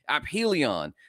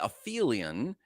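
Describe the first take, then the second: First: The p and h are said as separate sounds. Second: The 'ph' is blended into one f sound. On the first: The speaker calls it right. "ap meaning furthest from or out of" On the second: The speaker calls it wrong. "they want to say aphelion, which, because of the pH close to each other"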